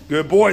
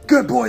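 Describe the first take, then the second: First: The praise is said in a calm, even tone. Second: The praise is said in a raised, excited tone.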